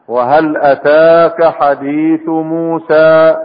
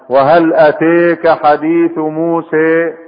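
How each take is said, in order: First: The long vowels are open, like 'a'. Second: The long vowels are fronted, toward 'e'. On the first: This is the plain reading without vowel tilting. "ده فتح" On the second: This is a dialectal reading with vowel tilting. "هذه إمالة"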